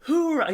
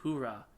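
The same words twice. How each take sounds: First: Much higher, loud joyful cheer; happy hoorah. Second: Mild quiet hoorah. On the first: Retelling Salim's first happy "Hoorah", high joyful shout. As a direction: burst out "Hoorah" like a thrilled soldier. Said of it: "He's so happy". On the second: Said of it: "Salim's like". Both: Retold or imitated.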